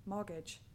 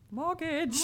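First: Said in the usual way. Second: Mortgage said high and loud; self-mocking Mortgage, pitched right up; exaggerated pronunciation. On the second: Shown as a demonstration. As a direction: blow up the word Mortgage, playfully. Mocks own pronunciation of mortgage.

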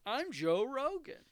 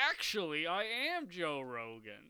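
First: Much higher, louder, slow squeal; hammed-up failed impression, loud; Joe Rogan impression. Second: Slow, put-on bad impression; a weak try at his voice; Joe Rogan impression. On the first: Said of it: "I can't do voices". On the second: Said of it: "Is that his voice? That's not his voice".

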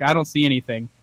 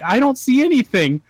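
First: Said in the usual way. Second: High, raised-voice retort; exclaimed out loud. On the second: Retold or imitated. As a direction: blurt it out high, reenacting a baffled reply. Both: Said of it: "I said that out loud".

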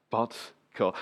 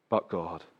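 First: Said in the usual way. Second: Hushed refrain. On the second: Shown as a demonstration. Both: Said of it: "repeated refrain".

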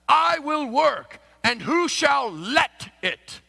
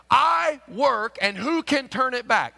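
First: Slow, raised, archaic scripture intonation; King James reading. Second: Raised plain scripture read; modern translation reading. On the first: Pastor demonstrating the King James wording, slow and raised. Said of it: "King James can be a little misleading". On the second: Pastor comparing the modern translation, raised. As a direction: read the modern version straight. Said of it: "Look at this same verse". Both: Shown as a demonstration.

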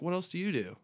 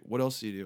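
First: Higher-pitched question thrown back; cheeky retort. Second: Said in the usual way. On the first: Retold or imitated. Musician turning the border guard's question back, cheeky retort.

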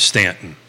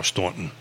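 First: Stanton said as STAN-tun, flat short a; first take says Stanton like the letters spell it. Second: Staunton said as STAWN-tun, open aw vowel; Staunton with aw sound. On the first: Host unsure of the town name, says Stanton. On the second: Host corrects the town name to Staunton, aw vowel. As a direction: correct himself to the local Staunton, softer. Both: Shown as a demonstration. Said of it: "Or Staunton".

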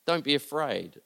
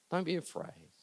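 First: Said in the usual way. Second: Much softer, almost breathed; hushed. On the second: Shown as a demonstration. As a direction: drop to a hush for comfort. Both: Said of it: "what Jesus is saying to you today".

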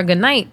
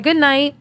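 First: Said in the usual way. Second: Put-on higher, childlike reply; small high-pitched child's voice; little daughter's voice. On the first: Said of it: "and I said to her". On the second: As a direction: imitate a toddler saying good night. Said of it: "So she was like".

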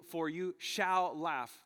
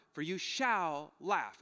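First: Very slow, "shall" pressed hard in "For you shall laugh"; slower emphasis. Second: Slow reading, weight on shall in "for you shall laugh"; slow emphasis. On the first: Preacher pointing out the divine passive, pressing "shall". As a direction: stretch every word, hit "shall". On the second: Preacher reading the promise from the passage, slow and weighty. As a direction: lean on "shall", drawn out. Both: Shown as a demonstration. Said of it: "Notice how the reaction, the response".

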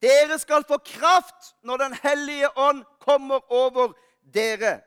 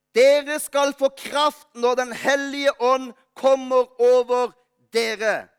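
First: Slow, deliberate, stressing Dere; solemn repeated Bible verse; slow emphatic scripture reading again. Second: Solemn deliberate Bible quote; slow emphatic scripture reading. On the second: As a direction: read slowly, weighing each word. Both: Shown as a demonstration.

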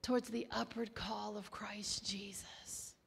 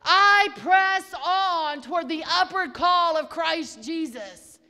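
First: Hushed, prayerful whisper, half the level; soft devotional whisper. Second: Loud, ringing preacher's declaration; full-voiced sermon cry; preached declaration. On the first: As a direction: breathe the words out in a whisper. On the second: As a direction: proclaim it boldly. Preaching over music. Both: Real, not acted.

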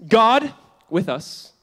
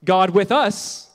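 First: "God" leaned on, slow and louder; stress on God. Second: "us" stressed, slow, "God" lighter. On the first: Pastor teaching the congregation the first emphasis, stressing "God". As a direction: hit "God" first, then let "with us" fall. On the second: Pastor showing the congregation a second emphasis, stressing "us". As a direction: land the weight on "us" at the end. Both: Shown as a demonstration. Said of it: "Three ways".

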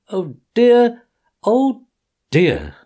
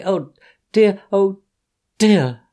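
First: Tearful oh dear. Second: High loud wail rising on the first dear; sobbing oh dear. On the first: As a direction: cry it, letting the last dear drop. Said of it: "crying afresh". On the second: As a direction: wail it up then let it fall. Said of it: "sobbed Toad". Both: Acted.

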